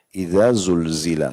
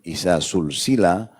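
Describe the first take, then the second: First: The consonants are buzzing, voiced dh and z sounds. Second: The consonants are hissing, voiceless s sounds. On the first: It means when the earth is shaken violently. The speaker calls it right. "zal, idza... dan zainya itu lidahnya bergetar" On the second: It means things joined one to another. The speaker calls it wrong. "kita bacanya pakai sin"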